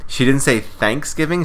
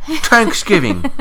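First: Said in the usual way. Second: "Thanksgiving" in a mock Irish lilt, the last one much higher and slow; imitating a Dublin "Thanksgiving". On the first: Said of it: "She said Thanksgiving". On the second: Mimicking the actress's Irish "Thanksgiving" for a co-host.

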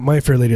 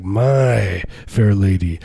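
First: Said in the usual way. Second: MY stretched long into a slow growl; possessive MY. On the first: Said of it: "it's not My Fair Lady". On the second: Shown as a demonstration. Correcting how the title is said, possessive growl on "My". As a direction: lean hard and slowly on "My". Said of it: "with a little bit of a possessive growl".

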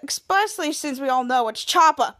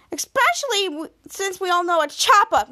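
First: Said in the usual way. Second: Higher, more emphatic accusing delivery; pointed accusation. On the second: Retold or imitated. Miles accuses Chopper before the team, pointed accusation. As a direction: lift the pitch and land on Chopper.

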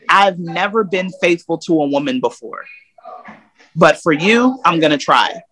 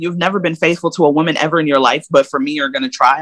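First: Said in the usual way. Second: Quick sarcastic echo. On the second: Retold or imitated. Woman mocking her ex's promise, fast and sarcastic. She echoes his promise back.

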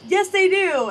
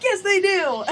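First: High, loud insistent retort; imitating dad cutting in with a loud, high contradiction. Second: High, loud retort through a laugh; imitating dad's loud, high insistence while cracking up; insistent dad, laughing. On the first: Dad insisting to the receptionist, mock high loud retort. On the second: Dad insisting again to the receptionist, loud high mock retort with a laugh.

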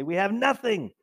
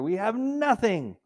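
First: Higher, whiny; lightly mocking grumble; mock complaint. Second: Higher, slow, drawn-out whine; hammed-up spoiled whine; mock whine. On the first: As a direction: whine over a full pantry. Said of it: "you say". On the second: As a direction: drag out the complaint. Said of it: "Open up the refrigerator".

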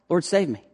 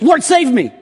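First: Said in the usual way. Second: High, loud cry for rescue. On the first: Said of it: "that's his cry". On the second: Retold or imitated. Peter sinking in the water crying to Jesus, high and loud. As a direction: call out like a sinking man. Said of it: "he cries out to Jesus".

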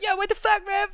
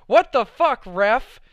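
First: Soccer taunt. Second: Loud, higher mock outburst at the ref; teen shouting a joke at the ref; joking yell at the ref. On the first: Retold or imitated. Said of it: "I'd be like". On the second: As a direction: yell it across the theater like a soccer taunt. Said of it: "just as a joke".

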